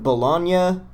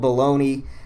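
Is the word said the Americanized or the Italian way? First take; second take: Italian; Americanized. First: It is said like the Italian city name. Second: It is said in an Americanized, altered way. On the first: It names the Italian city. The speaker calls it right. "the Italian city of Bologna" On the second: It names the sausage in American usage. The speaker calls it wrong. "started being called bologna"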